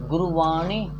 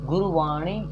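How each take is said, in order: No difference in how they are said.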